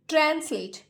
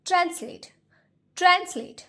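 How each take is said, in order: First: ट्रांसलेट said the wrong way, as written letter by letter; ट्रांसलेट read the wrong way as a demo; wrong pronunciation. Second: ट्रांसलेट said the correct way, higher and carefully; correct pronunciation. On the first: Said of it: "इसे हम ट्रांसलेट नहीं बोलते हैं". (ट्रांसलेट का गलत उच्चारण) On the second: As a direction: model ट्रांसलेट clearly for the class. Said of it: "इसका जो प्रोनाउंसिएशन होता है वो होता है". (ट्रांसलेट का सही उच्चारण) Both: Shown as a demonstration.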